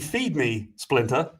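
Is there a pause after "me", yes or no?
yes. It is said with a pause after "me".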